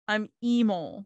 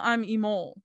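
First: The E of emo is strongly stressed. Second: The E of emo is weakly stressed.

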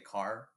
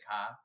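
First: It is said with a heavy West Coast R. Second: It is said with a Boston-New York R-less vowel.

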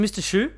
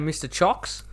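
First: The name is said like 'shoo'. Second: The name is said like 'chocks'. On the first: The speaker calls it right. "Is it Mr. Shu?" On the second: The speaker calls it wrong. "at one stage I was saying Mr. Chocks"

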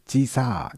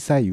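First: The ending vowel is stretched, Tokai dialect style. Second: It ends in a clear 'i', standard Japanese.

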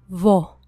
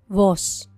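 First: The word ends in a faint breath. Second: The word ends in a clear s sound. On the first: "con la pronunciación puertorriqueña" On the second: "la traducción en español estándar"

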